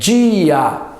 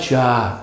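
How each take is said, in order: First: The stressed i is its own syllable, two syllables. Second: The i glides into the a, one syllable. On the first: The speaker calls it right. "é dia. ... inclusive o i é tônico" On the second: The speaker calls it wrong. "não é já"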